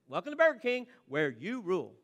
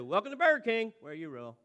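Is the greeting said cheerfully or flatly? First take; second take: cheerfully; flatly. First: The greeting sounds cheerful and lively. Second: The greeting sounds flat and without feeling.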